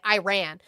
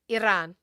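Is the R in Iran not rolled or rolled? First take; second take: not rolled; rolled. First: The R is not rolled. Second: The R is rolled. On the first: The speaker calls it wrong. "You guys like to say Iran. That's not how it's pronounced" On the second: The speaker calls it right. "It's pronounced Iran. ... you can't roll your R's"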